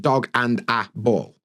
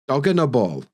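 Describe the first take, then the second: First: The middle words are said fully and separately. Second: The middle words blur into a weak 'unna'. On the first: "See how different that is to" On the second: "and a actually becomes unna"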